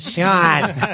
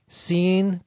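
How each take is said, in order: First: The name is said like 'shawn'. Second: The name is said like 'seen'. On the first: The name is said the accepted way. The speaker calls it right. "My mom says, Sean" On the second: The name is read as it is spelled. The speaker calls it wrong. "reading the credits and saying, oh, look, scene Connery"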